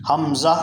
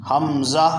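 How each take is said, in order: Both takes have the same delivery.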